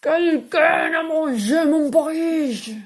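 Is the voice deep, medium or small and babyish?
deep. It is said in a big, deep, angry voice.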